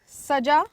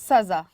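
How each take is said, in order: First: The middle consonant is a j sound. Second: The middle consonant is a z sound. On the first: It means to decorate. "सजाना के लिए हम प्रयोग करते हैं।" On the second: It means punishment. "सजा यानी कि दंड।"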